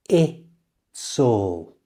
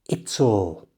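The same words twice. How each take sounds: First: The phrase is said slowly and drawn out. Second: The phrase is said quickly at normal speed. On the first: "So slowly it sounds like this" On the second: "And at a normal speed"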